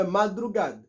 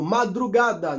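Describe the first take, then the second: First: "madrugada" with the final A swallowed; "madrugada" ending on a bare D; foreigners' mispronunciation. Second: "madrugada" with the final A sounded; "madrugada" as "ma-dru-GA-da"; correct full ending. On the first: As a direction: cut "madrugada" short to "madrugad". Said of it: "não é madrugada". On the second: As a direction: pronounce "madrugada" through to its last "da". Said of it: "A gente tem que soltar o som". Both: Shown as a demonstration.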